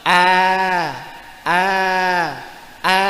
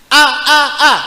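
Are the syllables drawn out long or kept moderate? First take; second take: long; moderate. First: Each syllable is drawn out very long. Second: Each syllable is slow but kept short. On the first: The speaker calls it wrong. "tidak boleh terlalu lambat ... Dawa. Ampun" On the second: The speaker calls it right. "dibuat slow tapi jangan panjang"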